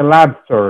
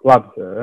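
First: The first syllable sounds like 'la'. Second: The first syllable sounds like 'lo'. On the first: The speaker calls it right. "it's LA" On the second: The speaker calls it wrong. "it's not LO"

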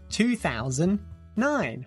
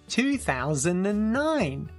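First: The number is said without the word 'and'. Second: The number is said with the word 'and'. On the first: "In American English, no and" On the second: "British English"

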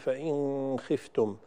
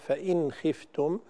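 First: The n is hidden with an added nasal hum. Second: The n is clear, with no added nasal hum. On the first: The speaker calls it wrong. "لا يصح أن نقول" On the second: The speaker calls it right. "فإنها تظهر ولا يزاد فيها غنة"

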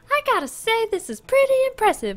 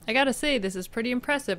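First: It is said in a put-on character voice. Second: It is said in the speaker's normal voice.

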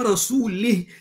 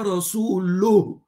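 First: The final syllable has an i vowel. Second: The final syllable has a u vowel. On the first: God disowns the prophet along with the polytheists. The speaker calls it wrong. "it means the Almighty Allah has disassociated himself with his prophet" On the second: God and the prophet both disown the polytheists. The speaker calls it right. "the right verse is"

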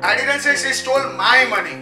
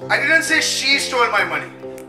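First: The stress is on the word 'my'. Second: The stress is on the word 'she'. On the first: It was somebody else's money. "It was somebody else's money" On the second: Somebody else took the money. "Somebody else stole that"

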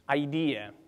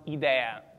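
First: It is pronounced the English way. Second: It is pronounced the Italian way.

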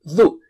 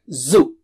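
First: It starts with the tongue tip at the teeth. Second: It starts with a plain z sound. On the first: The speaker calls it right. "Touch the tip of the tongue, touch it with the top teeth" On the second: The speaker calls it wrong. "It's not zu"

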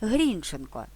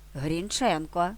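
First: The stress is on the first syllable. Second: The stress is on the second syllable. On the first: "наголос у прізвищі автора словника живої української мови падає на перший склад" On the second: "Наголос у прізвищі на другому складі"

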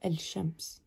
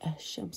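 First: The l of the article is clearly pronounced. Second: The l is dropped and the s doubled. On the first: The speaker calls it wrong. "not el shams" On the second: The speaker calls it right. "you don't pronounce the la. You say ashams"

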